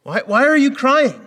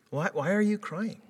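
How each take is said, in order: First: High, loud incredulous yell; exasperated shout. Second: Gentle reproving. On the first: Retold or imitated. Dad yelling at his son in mock disbelief. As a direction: blurt it out in disbelief. Exasperated retelling, contrasts line 3. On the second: Shown as a demonstration. Preacher voicing the angels to Mary, gently. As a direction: reprove her tenderly, not harshly. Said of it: "It's a gentle reproving".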